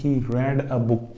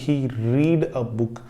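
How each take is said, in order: First: The verb is said with a short e vowel. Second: The verb is said with a long ee vowel. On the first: It uses the second form of the verb. "ये सीधा सीधा verb का second" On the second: It uses the first form of the verb. "ये sentence ही गलत है"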